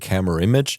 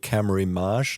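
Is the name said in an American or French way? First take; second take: American; French. First: The name is said with an American pronunciation. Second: The name is said with a French pronunciation. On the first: This is how Americans say the name. "People from America say camera image" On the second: This is how Europeans say the name. "people from Europe say camera image, like in a French way"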